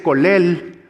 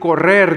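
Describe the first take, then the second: First: The R sounds are said like L. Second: The R sounds are trilled. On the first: "no sabe pronunciar la doble R" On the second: "en lugar de decir correr"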